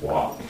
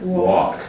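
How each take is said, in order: First: "walk" whispered, no L sound at all; "walk" rhymes with "talk", no L; soft clear teaching pronunciation. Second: "Walk." said with no L sound, like "wok"; "Walk." spoken slowly, no L; clear teaching pronunciation. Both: Shown as a demonstration. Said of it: "There's no L sound in it at all".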